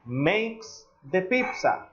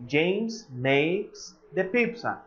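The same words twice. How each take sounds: First: Slow model sentence. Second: Each word laid out slowly for students; slow repeated model sentence. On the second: Teacher repeating the sentence slowly for the class. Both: Shown as a demonstration. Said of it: "if I say".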